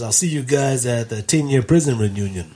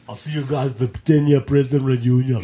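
First: It is said in the narrator's ordinary voice. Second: It is said in an imitated character voice. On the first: "He says" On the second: "do it in his voice"

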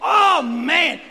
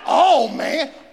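First: It is said loudly, with full energy. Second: It is said weakly, with little energy.

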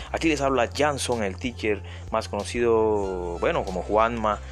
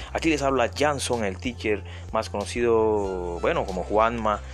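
Both takes have the same delivery.

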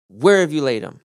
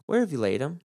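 First: It is said firmly, like a command. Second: It is asked in a mild, casual way. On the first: The speaker is deeply troubled and demands to be shown. The speaker calls it right. "He probably would have said it more of a command" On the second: It is a simple, neutral request for information. The speaker calls it wrong. "Jesus wouldn't have said"

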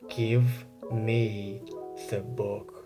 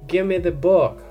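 First: Each word is clearly and fully enunciated. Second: Give me is reduced to gimme. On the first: "really enunciating this" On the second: "it's gimme"

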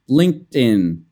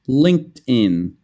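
First: The d joins the following 'in', like 'din'. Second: The d joins the following 'in', like 'din'.

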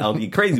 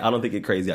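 First: The stress falls on the word crazy. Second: The stress falls on the word think. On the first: You might be some other things instead. "but you might be some other things" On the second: The speaker is certain you are crazy. "I know you're crazy"

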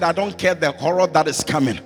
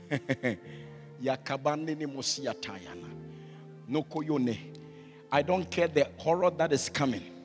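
First: It is said at a louder volume. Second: It is said at a normal volume.

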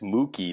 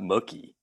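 First: The first syllable sounds like a cow's moo. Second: The first syllable does not sound like moo. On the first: The speaker calls it right. "It's Mookie, ... Like a cow" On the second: The speaker calls it wrong. "not Mookie"

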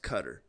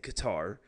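First: The name is said a non-American way. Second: The name is said the usual American way. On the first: The speaker calls it right. "I actually think it's like pronounced Qatar" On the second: The speaker calls it wrong. "us Americans are gonna say Qatar"

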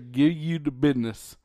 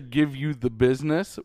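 First: Business is said without the s sound. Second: Business is said with a clear s sound. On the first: "business does not have an S" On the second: "we're not even going to say give you the business"

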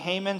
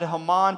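First: The name is given its usual American pronunciation. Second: The name is given its original, non-American pronunciation. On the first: This is how Americans usually say the name. "but you Americans say Haman"

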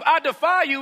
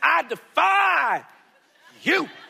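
First: It is said as a plain taunt. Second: It is said with strutting, showy swagger.

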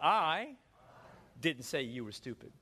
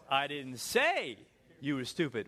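First: The stress is on the word I. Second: The stress is on the word say.

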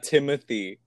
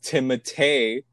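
First: The name is said with an English pronunciation. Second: The name is said with a French pronunciation. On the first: The speaker calls it wrong. "not Timothy" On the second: The speaker calls it right. "his name was pronounced Timothée"

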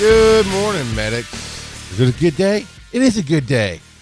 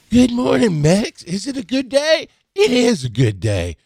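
First: It is said in the speaker's own natural voice. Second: It is said in a gentle, imitated children's-host voice.

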